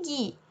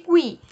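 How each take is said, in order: First: The u after the g is silent. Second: The u after the g is pronounced. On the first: The speaker calls it wrong. "não tem o som de gui" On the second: The speaker calls it right. "tem o som de gui"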